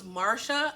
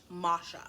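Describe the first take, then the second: First: "Marsha" with an R before the sh; "Marsha", as the name was first misheard. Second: "Masha" with no R before the sh; "Masha", as spelled out, R-less; corrected name. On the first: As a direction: say "Marsha" with the R sounded. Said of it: "Australian accent was just making it sound like that". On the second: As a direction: say "Masha" with an open ah straight into sh. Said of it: "her name was actually M". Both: Shown as a demonstration.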